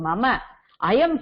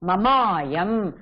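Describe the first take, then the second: First: The two words are said separately, vowels kept apart. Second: The two words merge into one with a long vowel. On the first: "சந்தி விச்சேதः பிரிச்சு சொல்லுங்கோ" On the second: "மமாயம் ரொம்ப சரளமான சந்தியாச்சே"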